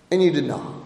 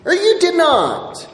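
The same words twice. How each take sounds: First: Much lower and softer "And you did not"; quiet verdict. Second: Higher, slow "Or you did not", "you" stressed; raised, slow restatement. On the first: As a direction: let it drop, heavy and soft. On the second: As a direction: lift it up and draw it out. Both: Shown as a demonstration.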